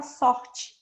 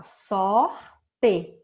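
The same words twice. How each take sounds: First: "sorte" as spoken, SOR-chi, ending in an I sound; everyday pronunciation. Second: SORTE said as written, "sor-TE", a clear E at the end; "Sorte" sounded out by its spelling, loud and deliberate; spelling pronunciation. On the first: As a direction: say "sorte" naturally, final E turned into I. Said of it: "como se fosse o I". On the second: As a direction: split "Sorte" slowly into sor and te, ending on a full E. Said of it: "se escreve com E no final". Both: Shown as a demonstration.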